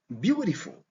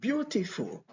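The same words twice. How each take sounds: First: It is said with an American accent. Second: It is said with a British accent. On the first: "Avec accent américain, on entend" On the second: "l'accent britannique, on entend"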